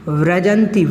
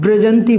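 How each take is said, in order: First: It begins with a v sound, lips apart. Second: It begins with a b sound, lips closed. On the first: The speaker calls it right. "वा है, व्रा वा वा वन वाला वा है" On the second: The speaker calls it wrong. "कोई लोग ब्रजंती बोल देते हैं, बा नहीं है वा है"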